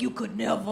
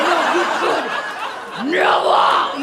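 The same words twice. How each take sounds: First: Softer, lower first take of you could never; muttered. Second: "No, you could never." louder, with "never." shouted out. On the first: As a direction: say "You could never." low and soft, under your breath. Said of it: "I was like, "No, you could never". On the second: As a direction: build to a yell on "never.". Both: Retold or imitated.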